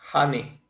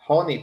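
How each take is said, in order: First: The first vowel sounds like an open a. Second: The first vowel does not sound like a. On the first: "su pronunciación es más como una A" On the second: "también puede ser"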